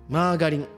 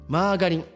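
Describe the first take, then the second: Both takes have the same delivery.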